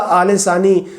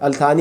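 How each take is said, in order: First: The name is said as 'Aale Sani' with an s. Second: The name is said as 'Al Thani' with a t. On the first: This is the Arabic way of saying the name. "अरबी का आले सानी" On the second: This is the English way of saying the name. "अंग्रेज़ी में अल्थानी"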